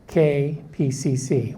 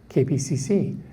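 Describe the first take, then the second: First: Each letter is said clearly and separately. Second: The letters are run together quickly. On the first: The speaker calls it right. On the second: The speaker calls it wrong.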